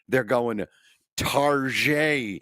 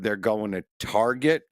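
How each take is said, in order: First: Target is pronounced in a deliberately fancy way. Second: Target is pronounced in the ordinary way. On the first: "people almost purposely mispronounce" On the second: "instead of"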